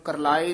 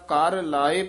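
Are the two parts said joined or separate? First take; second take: joined; separate. First: The two parts run together as one word. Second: The two parts are said as separate words. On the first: It refers to crying out or wailing. The speaker calls it wrong. "ਇਹਨੂੰ ਕਰਲਾਏ ਨਹੀਂ ਕਹਿ ਦੇਣਾ" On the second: It refers to levying a tax. The speaker calls it right. "ਇਹ ਵੱਖਰਾ ਕਰਨਾ"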